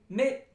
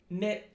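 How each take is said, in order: First: Mit with a short, tight, higher i; short German i. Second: Mitt with a lax i, nearer schwa; relaxed American i. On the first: Teacher comparing German to English, short tense i in mit. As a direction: clip the i in mit, German style. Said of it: "the German I is a little higher and definitely, uh, short". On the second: Teacher comparing English to German, relaxed i in mitt. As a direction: loosen the i in mitt, American style. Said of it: "it's gonna be more relaxed". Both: Shown as a demonstration.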